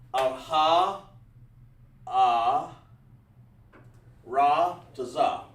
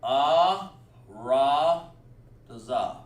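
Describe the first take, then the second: First: "ah, ha, ah, Ra to za" drawn out slowly as separate loud syllables; slow, spaced-out "Ra to za" with breaks between the syllables; rejected first try. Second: "Ah, ra, to za" said loud as one connected chain; teacher's corrected "Ah, ra, to za", flowing from syllable to syllable; corrected version. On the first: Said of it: "Oh, that ain't right". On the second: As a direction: link "Ah, ra, to za" together smoothly with a loud opening "Ah". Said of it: "So I'm gonna do it like this". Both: Shown as a demonstration.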